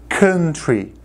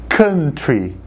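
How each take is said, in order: No difference in how they are said.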